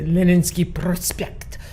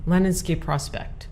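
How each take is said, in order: First: It is said with a Russian accent. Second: It is said with an American accent. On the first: "because I speak Russian. Otherwise, I want to say" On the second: "I'm going to use the American accent"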